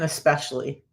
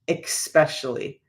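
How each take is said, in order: First: The word begins with an 'es' sound. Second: The word begins with an 'ex' sound. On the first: The speaker calls it right. "There is no X in especially" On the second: The speaker calls it wrong. "a lady said, There is no X in especially"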